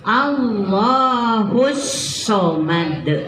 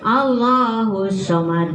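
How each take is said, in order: First: The s sound is held long and pressed. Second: The s sound is short and not pressed. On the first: The speaker calls it right. "Bacanya ditekan" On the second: The speaker calls it wrong. "jangan Allahus somad, nggak begitu"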